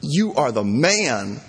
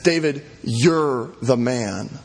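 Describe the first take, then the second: First: Congratulatory "You are the man", with a swooping, drawn-out MAN; upbeat praise, wrong way. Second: Slow, weighty "you're the man", pause-laden and pointed; grave accusation. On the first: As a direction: cheer "man" like praise for a buddy, slowly. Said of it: "Now, this is not". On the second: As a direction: accuse him: draw out "you're", let "the man" fall. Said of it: "it's not that. He says". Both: Shown as a demonstration.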